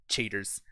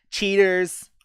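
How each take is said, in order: First: Said in the usual way. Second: Higher, louder whiny taunt; hammed-up whine of cheaters; mock accusation. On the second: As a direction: jeer it like a sore loser. Repeats the word mockingly.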